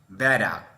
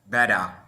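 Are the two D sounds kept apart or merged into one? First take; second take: merged; merged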